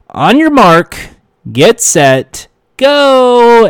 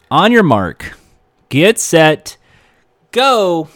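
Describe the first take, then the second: First: Building to a loud, high GO; announcer countdown. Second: Said in the usual way. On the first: Retold or imitated. Host finally launching the working take, rising to a loud shout. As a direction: shout the final take's start like a game show host.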